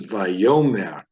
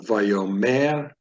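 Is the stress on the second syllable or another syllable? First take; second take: second syllable; another syllable. First: The stress falls on the second syllable. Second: The stress falls on a syllable other than the second. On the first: The speaker calls it right. "The stress is placed right here in the second syllable" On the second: The speaker calls it wrong. "So it's not Vayomer"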